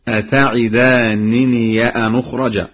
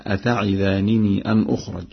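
First: "أتعدانني" ending in an open -niya; fatha on ya. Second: Said in the usual way. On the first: Shown as a demonstration. Teacher demonstrates three places, "أتعدانني" ending -niya. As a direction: recite "أتعدانني" with final -ya linked to "أن". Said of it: "بفتح ياء الإضافة".

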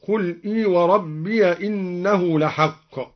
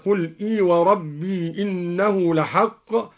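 First: وربي ending "rabbiya", joined to إنه; open ya when joining. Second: Said in the usual way. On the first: Shown as a demonstration. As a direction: say وربي with a short a on its y, flowing on. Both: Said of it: "فتح الياء وصلا".

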